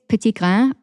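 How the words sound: The name is said with a French pronunciation.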